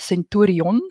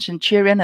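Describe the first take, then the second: First: The name is said with Afrikaans pronunciation. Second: The name is said with English pronunciation.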